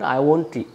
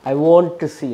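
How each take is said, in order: First: The T in won't is lightly pronounced. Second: The T in won't is strongly pronounced. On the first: The speaker calls it right. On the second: The speaker calls it wrong.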